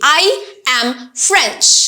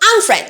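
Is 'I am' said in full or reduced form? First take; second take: full; reduced. First: Both words 'I am' are fully pronounced. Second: 'I am' is shortened to a weak 'm'. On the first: "এভাবে যদি বলি" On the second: "উইক ফর্মে"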